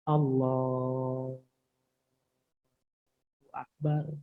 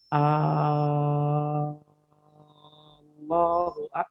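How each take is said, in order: First: The l sound in Allah is drawn out long. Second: The opening vowel of Allah is drawn out long. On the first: It states that God is great. The speaker calls it right. "yang bisa dipanjangkan hanya lamnya. Allahu Akbar bisa" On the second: It asks whether God is great. The speaker calls it wrong. "Misalnya kita baca begini. ... ini masalah nih"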